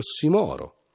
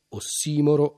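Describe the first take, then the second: First: The stress follows the Latin-style placement. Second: The stress follows the Greek-style placement. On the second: "la pronuncia alla greca"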